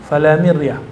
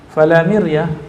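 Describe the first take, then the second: No difference in how they are said.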